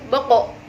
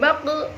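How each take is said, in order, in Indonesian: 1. Pantulan terakhirnya tebal, mengarah ke bunyi 'o'. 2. Pantulan terakhirnya tipis, mengarah ke bunyi 'u'. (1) "Harus boko" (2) "Tidak boleh baku"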